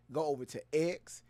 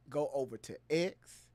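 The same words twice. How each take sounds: The two takes are said the same way.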